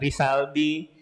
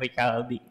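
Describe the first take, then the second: First: The middle consonant is an s sound. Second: The middle consonant is a k sound. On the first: The speaker calls it wrong. "bukan Risaldi" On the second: The speaker calls it right. "disebutnya Ricaldi gitu ya"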